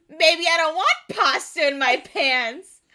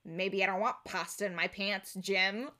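First: Loud, raised-pitch mock protest; hammed-up comeback, louder and higher; indignant outburst. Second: Low, muted deadpan comeback; underplay it, dry and serious; soft, lowered office-comedy monotone. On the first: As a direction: retort hotly, half laughing. Acts out Freddy's indignant comeback. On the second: Acted. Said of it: "in a deadpan comedy".

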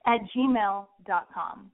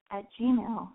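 First: Slow, deliberate, every word spelled out; slow careful redo. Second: Voice cracking up an octave. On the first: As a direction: redo it slowly and clearly. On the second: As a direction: let the voice crack upward mid-word. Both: Real, not acted. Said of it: "Oh my God, my voice cracked".

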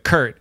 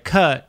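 First: Said in the usual way. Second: "Kurt" said like "cut"; British "Kurt" with no R; R-less Kurt. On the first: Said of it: "I was like". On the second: Retold or imitated. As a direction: imitate a London barista's R-less "Kurt". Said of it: "And they're like".

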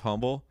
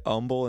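First: Said in the usual way. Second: "umble" starting straight on the vowel; dropped H. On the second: Retold or imitated. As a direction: say "umble" with the H missing. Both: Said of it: "umble instead of humble".

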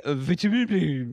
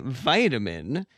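First: "vitamin" said the British way, VIT-a-min. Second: "vitamin" said the American way, VY-ta-min. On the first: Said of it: "you say". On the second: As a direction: say "vitamin" with a long VY. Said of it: "We say". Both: Shown as a demonstration.

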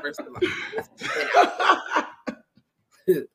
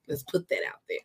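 First: Higher, laughing through the words. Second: Said in the usual way. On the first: Real, not acted. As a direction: crack up mid-sentence. Host laughing at guest's joke.

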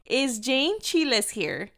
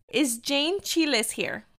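First: "Chiles" as chee-less once more, slow; calling the name again. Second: "Chiles" said as chee-less, slow and careful; mispronouncing a name. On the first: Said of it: "And no one answers". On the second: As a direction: call out "Jane Chiles" like it's read off a list. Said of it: "I was mortified". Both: Retold or imitated.

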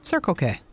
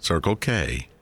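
First: "Circle K" with CIRCLE up, K dropped; first-word stress. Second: Low "Circle K" with weight on K; usual even stress. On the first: Host answers with her own odd version, "Circle K" front-stressed. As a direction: start up on "Circle" and come down. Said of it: "I say it that way". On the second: Co-host shows how most people say it, "Circle K" stressing K. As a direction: give "K" its full weight in "Circle K". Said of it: "I think most people". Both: Shown as a demonstration.

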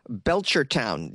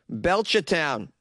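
First: Said in the usual way. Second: Put-on Belchertown in a Boston accent, R dropped; thick Boston local saying the town's name. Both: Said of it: "exercise my friggin' accent".

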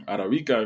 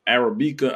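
First: Arabica with a tapped Spanish r; Spanish vowels and stress on BI in Arabica; Spanish pronunciation. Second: Said in the usual way. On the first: Shown as a demonstration. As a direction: say Arabica as in Spanish, ah-rah-BEE-kah. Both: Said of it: "if you're saying it in Spanish".

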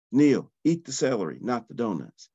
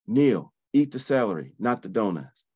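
The two takes are said the same way.

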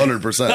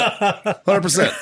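First: Said in the usual way. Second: Hundred percent drawn out slowly, much higher, through laughter; laughing. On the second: Real, not acted. Confirming the cock slap ruling to friends, laughing. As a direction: stretch Hundred percent out while cracking up.

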